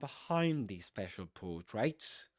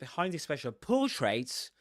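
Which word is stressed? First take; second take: behind; special. First: The stress is on behind. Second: The stress is not on behind. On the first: The speaker calls it right. "So the accent goes on behind" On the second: The speaker calls it wrong. "they don't say"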